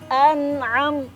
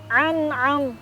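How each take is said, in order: First: It starts with a glottal stop, then a pharyngeal. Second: Both consonants are deep throat pharyngeal sounds. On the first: It means the favour you bestowed. The speaker calls it right. "An'am yang pertama hamzah itu tenggorokannya tenggorokan atas. Kalau ain tenggorokan bawah" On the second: The meaning becomes unclear. The speaker calls it wrong. "Ain dua-duanya. ... itu juga salah"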